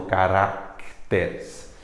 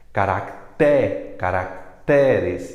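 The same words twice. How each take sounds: First: Caracteres mispronounced with stress on RAC. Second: Caracteres slowly, punching TÉ; stress on TE. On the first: Teacher showing the error once more, stress on RAC in caracteres. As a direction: say ca-RÁC-te-res slowly. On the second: Teacher repeating the right plural, stress on TÉ in caracteres. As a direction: sound out ca-rac-TÉ-res. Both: Shown as a demonstration. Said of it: "e não caracteres".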